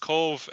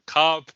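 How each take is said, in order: First: The name ends with a v sound. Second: The name ends with a b sound. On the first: The speaker calls it right. "so it's Cove" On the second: The speaker calls it wrong. "probably the most uh, mispronounced uh, town in Ireland itself, often called Cobb"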